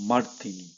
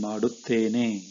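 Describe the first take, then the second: First: The word is said in a shortened form. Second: The word is said in its full form. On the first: It is the colloquial way of saying it. "you will say ... it is fast to speak" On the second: It is the formal way of saying it. "Instead of saying"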